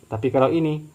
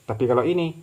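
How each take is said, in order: The two takes are said the same way.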